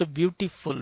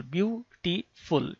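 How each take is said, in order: First: Said in the usual way. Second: ब्यूटीफुल drawn out slowly as "byoo, tee, ful"; divided into syllables. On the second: Shown as a demonstration. Teacher showing learners how ब्यूटीफुल divides by sound, syllable by syllable. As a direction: break ब्यूटीफुल into three slow, separate syllables. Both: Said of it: "syllables को divide होते हैं".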